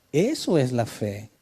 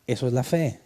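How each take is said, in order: First: "Eso es la fe" said slowly with weight on "eso" and a long "fe"; slow emphatic repeat. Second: Said in the usual way. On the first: Shown as a demonstration. Preacher repeats the point to his congregation, slow and emphatic. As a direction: let "eso" land, stretch "fe".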